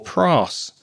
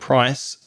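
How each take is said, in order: First: The vowel is a long, single sound. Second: The vowel glides between two sounds. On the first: The speaker calls it wrong. "making it longer and not correct" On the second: The speaker calls it right. "the I diphthong"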